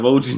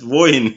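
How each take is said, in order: First: The J sounds like an English J. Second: The J sounds like a Y. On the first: The speaker calls it wrong. "that's not Vojin" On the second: The speaker calls it right. "that's Voyin. You know, that's Silent J"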